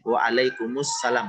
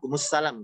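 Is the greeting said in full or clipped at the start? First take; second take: full; clipped. First: The whole greeting is said clearly from the start. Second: The start is dropped, leaving only the end. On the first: The speaker calls it right. "Seharusnya kan kita jawab uh, waalaikumsalam gitu ya" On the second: The speaker calls it wrong. "Seakan-akan terpotong atau di awalnya tidak jelas"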